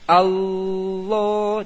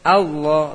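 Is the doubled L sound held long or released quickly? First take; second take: held; quick. First: The doubled L sound is held long. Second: The doubled L sound is released quickly. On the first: The speaker calls it wrong. "Allah jangan" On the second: The speaker calls it right. "Allah langsung"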